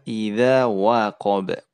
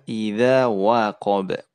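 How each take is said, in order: First: The wa sound is thin and light. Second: The same.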